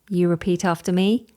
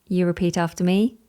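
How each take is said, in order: Both takes have the same delivery.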